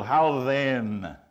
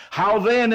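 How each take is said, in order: First: Said in the usual way. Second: "then" punched much higher and louder; stress on then. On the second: Shown as a demonstration. Preacher to congregation, loud stress on "then". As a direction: lean hard into "then". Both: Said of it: "And the stress is on the word "then".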